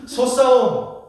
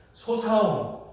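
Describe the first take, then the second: First: "소싸움" loud and high, with tense ss; correct tense ss. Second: "소사움" with lax s replacing the tense ss; Gyeongsang pronunciation. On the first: Preacher models bullfight for Gyeongsang members, tense ss in "소싸움". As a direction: hit a hard double-s in "소싸움". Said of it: "쌍식 발음이 잘 안 되잖아요". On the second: Preacher shows Gyeongsang speakers saying bullfight, Gyeongsang lax s. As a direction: Gyeongsang accent, softened s in "소사움". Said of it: "이렇게 되요". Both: Shown as a demonstration.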